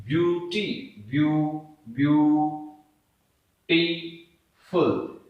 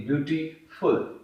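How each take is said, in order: First: "beautiful" broken into three syllables with long pauses. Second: Said in the usual way. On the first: Shown as a demonstration. Teacher showing the three syllables of "beautiful", said syllable by syllable. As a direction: slowly build up "beauty, view-, beautiful" in separate pieces. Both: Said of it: "हम इसे तीन syllables में बोलते हैं".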